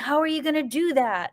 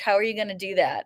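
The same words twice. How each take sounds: First: It sounds excited and supportive. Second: It sounds doubtful and dismissive.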